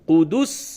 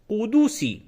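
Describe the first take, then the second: First: The word ends on the final s consonant. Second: The word ends with a final i vowel. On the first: The reader stops on this word. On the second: The reading continues without a stop.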